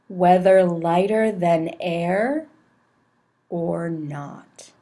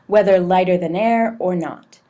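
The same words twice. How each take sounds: First: It is read very slowly with long pauses. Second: It is read at a moderate pace. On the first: The speaker calls it wrong. "Too many pauses, really slowly" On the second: The speaker calls it right. "somewhere in between. Maybe something like this"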